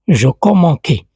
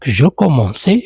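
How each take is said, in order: First: The c is pronounced as a hard k sound. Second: The c is pronounced as a soft s sound. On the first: The speaker calls it wrong. "C'est faux" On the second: The speaker calls it right. "j'ajoute la C D pour entendre le son C"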